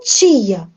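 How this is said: It is said with a Brazilian accent.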